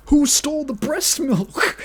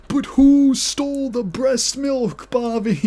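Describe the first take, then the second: First: High, louder playful accusing question with WHO leading; hammed-up whodunit demand, stress on who; mock detective question. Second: Slow, drawn-out high accusing question with WHO stretched; hammed-up accusation. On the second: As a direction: dramatically drag out who to corner Bobby. Mock-dramatic accusation aimed at Bobby.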